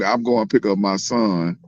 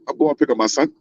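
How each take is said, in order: First: The phrase is said slowly and drawn out. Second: The phrase is said quickly and clipped. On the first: The speaker is from the South. "it's gonna lay out like" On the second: The speaker is from the East Coast. "he going real fast with it"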